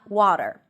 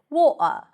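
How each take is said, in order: First: It is said with an American accent. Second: It is said with a non-American accent. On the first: "you practice American pronunciation" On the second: "the host always says water"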